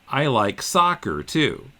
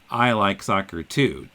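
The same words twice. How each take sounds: First: The stress is on soccer. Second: The stress is on I and too.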